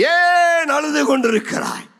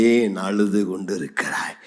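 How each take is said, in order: First: High-pitched preacher's cry; impassioned cry. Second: Low, hushed question; gentle question. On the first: Preacher challenging the weeping congregation, crying out. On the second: Jesus asking the weeping one, gently. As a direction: ask it tenderly, far lower. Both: Acted.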